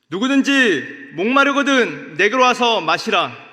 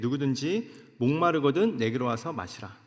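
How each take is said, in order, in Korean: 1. 큰 소리로, 외치는 듯한 목소리로 읽습니다. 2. 조용하고 평범한 목소리로 읽습니다. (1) "큰 소리로 말씀하셨다라는 것입니다" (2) "사실 이렇게 읽으면 안 됩니다"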